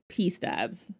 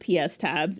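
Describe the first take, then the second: First: The S is joined onto the following word. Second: The S is said as a separate letter. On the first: The speaker calls it right. "It is P stabs" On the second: The speaker calls it wrong. "it is not P S tabs"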